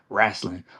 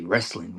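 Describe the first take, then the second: First: The word has a country-style, drawled pronunciation. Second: The word has a standard, Bay Area pronunciation. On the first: "We don't say wrestling" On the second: "I'm from the Bay Area, so we say wrestling"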